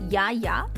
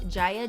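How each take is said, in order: First: The name is said the Swedish way. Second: The name is said the English way.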